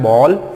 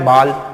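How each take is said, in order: First: The vowel is a rounded 'aw' sound. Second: The vowel is an open unrounded 'ah' sound. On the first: The speaker calls it right. "इसका जो है चंद्र बिंदु ये भी बनता है" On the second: The speaker calls it wrong. "इसीलिए हम लोग गलती करते हैं"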